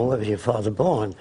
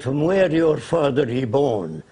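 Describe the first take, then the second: First: Said in the usual way. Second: Slow, imitated Arab-accented English. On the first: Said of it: "And that means". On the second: Arab leader asking caller's origins, in a slow Arab accent. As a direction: put on a light Arab accent, slowly. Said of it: "He said in his accent".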